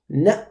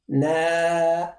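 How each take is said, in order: First: The sound is cut off abruptly. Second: The sound flows on without being cut off. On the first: The speaker calls it right. "the flow of sound is restricted. We say na" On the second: The speaker calls it wrong. "We don't say na because that's incorrect"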